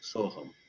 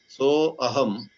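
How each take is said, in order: First: The words merge into one, dropping the 'a'. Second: The words are separate, with the 'a' pronounced.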